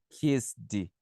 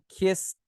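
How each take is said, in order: First: The ending is said as an extra syllable. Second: The ending is a short T sound. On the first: The speaker calls it wrong. "Eu não falo kissed" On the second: The speaker calls it right. "eu falo kissed. Tem que diminuir mais um pouquinho aqui"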